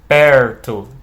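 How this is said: The R is curled back, retroflex. "como a gente chama de R retroflexo"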